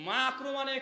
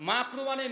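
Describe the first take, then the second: The two takes are said the same way.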